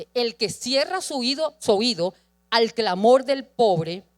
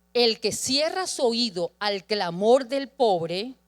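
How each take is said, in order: No difference in how they are said.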